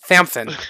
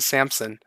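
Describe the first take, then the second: First: The name is said with lisped th sounds. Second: The name is said with clear s sounds.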